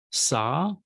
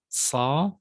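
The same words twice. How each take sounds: First: Said in the usual way. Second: "sa" with a Semitic emphatic S. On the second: Shown as a demonstration. Teacher reading the sibilants to students, emphatic "sa". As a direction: make the S of "sa" emphatic, a little different from plain S. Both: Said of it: "emphatic consonant sounds a little different".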